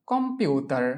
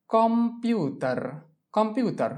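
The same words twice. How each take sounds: First: Said in the usual way. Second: computer drawn out slowly and higher, syllable by syllable; slow model pronunciation. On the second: Shown as a demonstration. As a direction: stretch কম্পিウটার slowly so students copy. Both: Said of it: "teacher models pronunciation".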